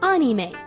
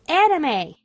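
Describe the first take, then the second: First: The word is pronounced in a Japanese style. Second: The word is pronounced in an English style. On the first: "The correct way, I guess, is anime" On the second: "people like me who say it like anime"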